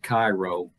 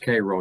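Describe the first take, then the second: First: The first syllable sounds like 'ky'. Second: The first syllable sounds like 'kay'. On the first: This is how an outsider would guess it. The speaker calls it wrong. "not Cairo, as one would think" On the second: This is how the town itself says it. The speaker calls it right. "it's pronounced Cairo"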